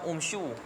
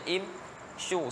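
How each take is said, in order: First: The word begins with an 'u' vowel. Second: The word begins with an 'i' vowel. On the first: The speaker calls it wrong. "Kita tak baca dom umsyu" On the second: The speaker calls it right. "kita akan baca im syu"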